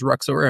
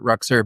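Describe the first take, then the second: First: The name ends with a full 'or' sound. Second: The name ends with a reduced 'er' sound. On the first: This is how other people may say it. "if someone else says Ruxor, I'm totally okay with that" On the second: This is the owner's own pronunciation. "So I pronounce it Ruxer"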